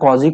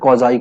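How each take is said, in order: First: The word ends with an 'ee' sound. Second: The word ends with an 'eye' sound. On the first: "या तो क्वाजी concave and क्वाजी convex" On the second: "इसको कॉजाई concave and कॉजाई convex भी बोला जाता है"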